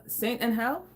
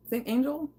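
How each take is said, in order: First: "Angel" with the G as an H, like Spanish; Spanish-style G. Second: "Angel" in an American accent, with a soft J sound; questioning American-accented "Angel", rising at the end. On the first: Streamer unsure how to say the French brie, Spanish-style G. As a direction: try "Angel" tentatively with a soft Spanish H. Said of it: "do they do G's like that?". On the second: Streamer retrying the cheese name, American accent. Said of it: "In the American accent". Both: Shown as a demonstration.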